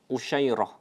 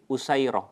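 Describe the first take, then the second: First: It has an sh sound and ends in -ah. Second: It has an s sound and ends in -ah. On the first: "shin dengan titik tiga ... rohnya dengan fathah, kemudian tak marbutoh" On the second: "Usairah dengan sin biasa tanpa titik"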